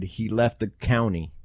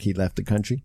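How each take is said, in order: First: "county" said without the r, as on the subtitle; "county", no r sound; county read from subtitle. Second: "country" said with a clear r; "country" with the r sounded. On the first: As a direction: say "county" plainly, like the rural word. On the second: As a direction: say "country" as meant, with the r. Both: Shown as a demonstration. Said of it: "supposed to say country".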